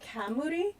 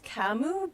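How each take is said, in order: First: The word ends with an added third syllable. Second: The word ends after two syllables. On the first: This is how the locals say it. "but they say kamuri" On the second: This is how the speaker thought it was said. "I think it's kamu"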